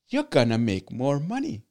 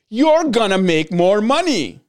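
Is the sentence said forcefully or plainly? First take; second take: plainly; forcefully. First: It is said in a plain, ordinary way. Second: It is said with more force and energy.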